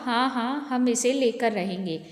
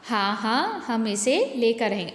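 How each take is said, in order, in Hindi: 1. यह बिना किसी विराम के सीधे पढ़ा जाता है। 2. शुरुआती शब्दों के बाद एक विराम है। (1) "यहाँ किसी भी विराम चिन्ह का प्रयोग नहीं किया गया है" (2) "अब विराम चिन्ह के प्रयोग के साथ देखें।"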